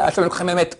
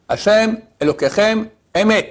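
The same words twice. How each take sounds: First: The words are mumbled and barely audible. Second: The words are spoken clearly and audibly. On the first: The speaker calls it wrong. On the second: The speaker calls it right.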